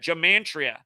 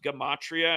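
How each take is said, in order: First: An extra nasal sound is added mid-word. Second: No extra nasal sound is added mid-word. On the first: The speaker calls it wrong. "why the hell does he keep adding an M in the word?" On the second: The speaker calls it right. "it's actually pronounced Gematria"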